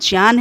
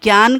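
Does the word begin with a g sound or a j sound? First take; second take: j sound; g sound. First: The word begins with a j sound. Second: The word begins with a g sound. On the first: This is the correct way of saying it. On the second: This is the popular way of saying it.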